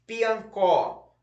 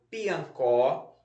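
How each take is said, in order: First: "Piancó" higher, last syllable CÓ punched and falling; stress on CÓ. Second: "piancó" read evenly with a rising list tune; word dictation. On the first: Teacher shows pupils where to underline, "Piancó" stressed on CÓ. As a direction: hit the final syllable of "Piancó". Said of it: "um tracinho embaixo da sílaba có". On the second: Teacher repeats the word list for pupils, "piancó" in careful dictation. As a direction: dictate "piancó", end lifted. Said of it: "vamos lá repetir as palavras". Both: Shown as a demonstration.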